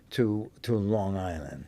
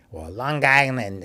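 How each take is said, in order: First: Said in the usual way. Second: Long Island said the New York way, run together as Lon-Gisland; imitating mom saying Long Island with a hard g; mock New York mom saying Long Island; mother's Long Island accent. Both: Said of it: "as my mother said".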